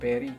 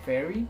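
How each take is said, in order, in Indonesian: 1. Dimulai dengan bunyi P. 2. Dimulai dengan bunyi F.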